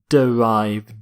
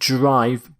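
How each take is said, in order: First: The first vowel is pronounced, giving two syllables. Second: The first vowel is dropped, giving one syllable. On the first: The speaker calls it right. "but derive" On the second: The speaker calls it wrong. "not drive"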